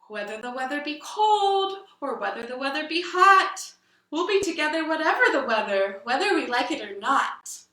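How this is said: It is said in a fearful tone.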